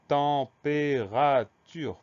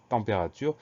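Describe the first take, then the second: First: "température" drawn out slowly, each syllable held apart; teacher's slow dictation of "température", syllable by syllable. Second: Said in the usual way. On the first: Shown as a demonstration. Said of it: "Première syllabe". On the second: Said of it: "c'est ce en qui va s'écrire E M".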